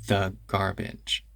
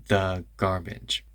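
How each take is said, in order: No difference in how they are said.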